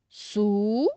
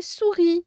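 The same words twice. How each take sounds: First: "Sou-ri" with a long held "Sou", then a gap; syllable by syllable. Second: Said in the usual way. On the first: Shown as a demonstration. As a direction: stretch and separate both halves of "Sou-ri". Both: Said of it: "on va séparer les syllabes".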